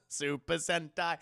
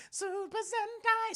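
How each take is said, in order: First: Said in the usual way. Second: Very high, drawn-out call; high-pitched announcing. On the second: Acted. Streamer naming the lookalike design, high drawn-out mock call. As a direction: sing out the name high and slow. Repeats the name in a put-on call.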